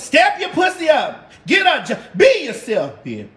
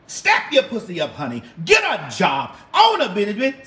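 First: Signature catchphrase shout. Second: Said in the usual way. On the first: Pretend. Giving her fans the famous catchphrase, high and loud.

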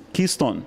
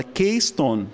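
First: Keystone said KEE-stone, first syllable like "key"; English pronunciation. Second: Keystone said KAY-stone, first syllable like "kay"; as spelled. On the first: Lecturer repeating the button's name, Keystone as English "KEE-stone". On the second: Lecturer naming the projector button, Keystone read as spelled "KAY-stone". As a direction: say Keystone as written, with KEY as "kay". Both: Shown as a demonstration. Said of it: "como tá escrito ali".

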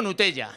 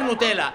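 First: "Nutella" as Nu-te-ya, Spanish style; Spanish ll pronunciation. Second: "Nutella" as Nu-te-la, no y sound; single l pronunciation. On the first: Father showing how he says it, "Nutella" with a y sound. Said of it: "yo digo Nutella". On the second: Father showing how wife says it, "Nutella" with an l. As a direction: say "Nutella" with a plain l. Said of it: "mi mujer Nutella". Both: Shown as a demonstration.

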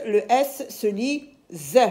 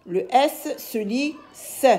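First: Final "Z" said as the sound /z/; buzzed Z sound. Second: Final "S" said as the sound /s/; hissed S sound. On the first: Teacher explains S between vowels, final "Z" sounded as /z/. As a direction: say the last "Z" as a voiced zzz sound. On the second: Teacher explains S between consonants, final "S" sounded as /s/. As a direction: say the last "S" as a voiceless sss sound. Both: Shown as a demonstration.

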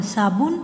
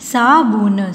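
First: Said in the usual way. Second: साबुन stretched sound by sound; syllable by syllable. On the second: Shown as a demonstration. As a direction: hold each syllable of साबुन. (साबुन को तोड़-तोड़ कर) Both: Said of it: "फिर ये सारे बोलने".

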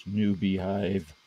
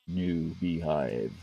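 First: Said in the usual way. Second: Mock deep announcer voice for the bees; deeper voice. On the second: Shown as a demonstration. Gamer naming his beehive project in a slow, lower voice. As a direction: drop lower and drag it out slowly. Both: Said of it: "Why my voice get deeper?".

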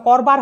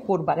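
First: করবার with open ɔ, "kawr-bar"; first syllable of করবার like "kawr"; open vowel in করবার. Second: করবার with rounded o, "kor-bar"; first syllable of করবার as "kor"; closed o in করবার. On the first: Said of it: "তখন সেটার উচ্চারণ হবে". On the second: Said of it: "উচ্চারণ হবে করবার". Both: Shown as a demonstration.

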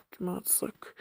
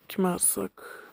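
First: Kime atsak whispered unvoiced. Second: Said in the usual way. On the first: Real, not acted. Same question then whispered.

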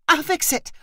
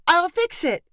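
First: High, urgent cry; aunt calling to a screeching nephew; cried out. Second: Higher, pleading repeat; cried out, more urgent. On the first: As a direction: call it out to stop a tantrum. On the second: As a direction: push the repeat harder than the first. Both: A narrator's reading. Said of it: "Megan cried".

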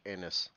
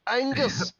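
First: Anus said low and quiet as a joke on Angus; mock mispronounced Angus. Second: Angus! called out much higher, the g sounded; mock Scottish exclaim. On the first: Joking that the county Angus sounds like Anus, said low. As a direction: drop the g and say Anus under your breath. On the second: Friend shows the proper Angus after joking Anus, exclaimed high. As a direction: cry out Angus! like a proud Scot. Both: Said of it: "I really wanna say".

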